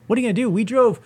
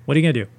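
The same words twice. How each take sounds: First: High-pitched incredulous comeback; retold outraged disbelief; indignant echo. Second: Mock indifferent brush-off; casual, dismissive retold reply; dismissive imitation. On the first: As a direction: throw the question back, pitched way up. Throws the dismissive line back, outraged. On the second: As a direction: imitate someone shrugging off the problem. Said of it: "how dismissive they were".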